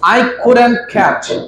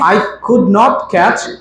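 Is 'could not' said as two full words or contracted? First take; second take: contracted; full. First: Could and not are joined into one word. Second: Could and not are said as two separate words. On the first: "কুড নট কে একসাথে করে কুডন্ট" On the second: "কুড নট"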